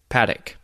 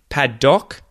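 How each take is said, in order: First: The second syllable is reduced to a schwa. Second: The second syllable has a full, clear vowel. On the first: "but I say paddock. notice the schwa in there" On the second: "Paddock is how it's spelt and how you would say it phonetically"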